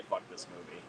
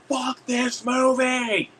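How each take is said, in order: First: Said in the usual way. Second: High, drawn-out holler; mock yell. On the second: Moviegoer standing up at a terrible sequel, mock yell. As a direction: stretch it out high like a theater heckler. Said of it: "I will yell that out".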